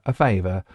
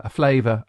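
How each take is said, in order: First: Favour said properly after the slip; self-correction. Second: Flavour said by mistake for favour; slip of the tongue. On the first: DJ corrects the slip, says favour right. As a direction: correct yourself back to favour. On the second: DJ fumbles mid-sentence, says flavour by mistake. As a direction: trip over the word and say flavour. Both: Real, not acted.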